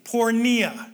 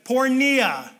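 First: The word is said in a calm, plain way. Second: The word is said with more excitement and energy. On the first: "Say that with me" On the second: "A little more excitement"

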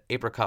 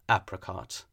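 First: It is said in a plain, everyday pronunciation. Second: It is said in a posh, affected pronunciation. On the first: It is the familiar, natural way. "I've said apricot my entire life" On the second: It feels pretentious and upper-class. "I feel like an asshole when I say apricot... crossing the line"

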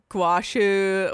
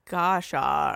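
First: It starts with 'gwa' and ends with 'shu'. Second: It starts with 'go' and ends with 'sha'. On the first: "Or like guashu, or like I was something totally wrong" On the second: "I think I called it gosha"

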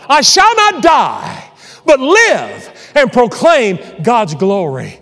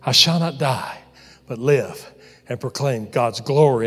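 First: It is said out loud, strongly. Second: It is said a little louder.

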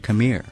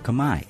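First: The word is said with an English pronunciation. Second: The word is said with a Cambodian pronunciation.

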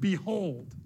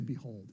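First: It is said with gusto and energy. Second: It is said flatly, without energy.

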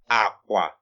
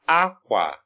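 First: Both syllables are on a low tone. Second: The tone goes from high to low. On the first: It means bed. "So it's low tone at this point" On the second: It means cloth. "it's high tone, low tone"

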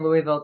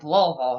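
First: The word is said with all its syllables. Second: The word is said reduced, with sounds dropped. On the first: The speaker calls it wrong. "I was saying it wrong, too. I kept saying Louisville" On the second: The speaker calls it right. "everybody down here was like"

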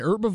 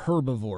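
First: The word begins without an h sound. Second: The word begins with an h sound. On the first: "An herbivore" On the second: "a herbivore"

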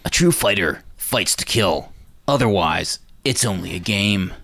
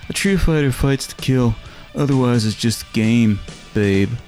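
First: It sounds like a dubbed martial-arts movie voice. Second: It sounds like a casual, relaxed everyday voice.

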